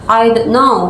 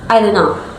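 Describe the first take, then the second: First: The T in "don't" is clearly pronounced. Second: The T in "don't" is dropped. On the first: "instead of saying" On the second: "The T in done is dropped"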